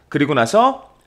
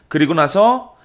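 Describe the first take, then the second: The two takes are said the same way.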